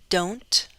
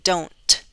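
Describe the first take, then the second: First: The T is released with a light puff. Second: The T is released with a strong breathy puff. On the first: The speaker calls it right. "I'll say it with a true T. ... That aspiration is controlled" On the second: The speaker calls it wrong. "I'm not saying don't, ... That's not what I'm suggesting"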